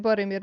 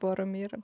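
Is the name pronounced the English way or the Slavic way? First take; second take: Slavic; English. First: The name is pronounced the Slavic way. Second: The name is pronounced the English way. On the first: The speaker calls it right. "It would be Boromir" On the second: The speaker calls it wrong. "not Boromir"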